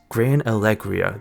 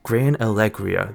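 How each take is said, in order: First: The middle is sounded like 'leg'. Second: The middle is sounded like 'leg'.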